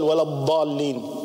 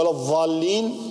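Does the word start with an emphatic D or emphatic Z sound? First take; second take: emphatic D; emphatic Z. First: The word begins with an emphatic d sound. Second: The word begins with an emphatic z sound. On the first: The word means those who went astray. The speaker calls it right. "بدل ولا الضالين" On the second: The word means those who stayed in place. The speaker calls it wrong. "وهو ولا الضالين بدل ولا الضالين"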